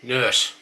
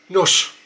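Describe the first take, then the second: First: Said in the usual way. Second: Nurse said loud with a short nuss vowel. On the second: Shown as a demonstration. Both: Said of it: "start with a few words".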